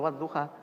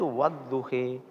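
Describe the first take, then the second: First: The final vowel is a plain open 'a'. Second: The final vowel is tilted toward 'e/i'. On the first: This is one recognized reading of the word. "Kalau Hafiz ya wadduha" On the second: This is another recognized reading of the word. "Imam Hamzah itu wadduhi"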